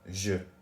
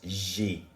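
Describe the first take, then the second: First: The word ends in a short 'uh' vowel. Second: The word ends in a clear 'ay' vowel. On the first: It sounds like 'I' instead of 'I have'. The speaker calls it wrong. "because I'm saying je" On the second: It clearly means 'I have'. The speaker calls it right. "but it's j'ai"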